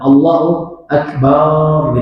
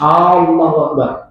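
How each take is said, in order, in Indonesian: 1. Bunyi ba pada Akbar dibaca panjang. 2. A pertama pada Allah dibaca panjang. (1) "banyak dipanjangkan" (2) "Alif lam pada kata Allahnya dipanjangkan"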